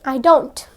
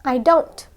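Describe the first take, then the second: The two takes are said the same way.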